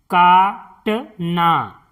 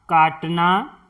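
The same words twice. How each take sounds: First: काटना drawn out slowly as का-ट-ना; slow syllable-by-syllable. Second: Said in the usual way. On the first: Shown as a demonstration. Teacher sounding out काटना for pupils, slowly. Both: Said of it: "इस तरह से".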